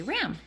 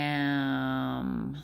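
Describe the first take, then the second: First: RAM in one quick word; said fast. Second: RAM stretched, every sound held and blended; slow sounding-out. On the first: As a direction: snap RAM out whole, no stretching. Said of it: "then they say it fast". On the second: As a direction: draw RAM out like "rrraaammm". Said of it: "say it slow". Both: Shown as a demonstration.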